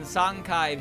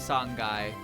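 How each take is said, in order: First: The second syllable begins with a k sound. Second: The second syllable begins with a g sound.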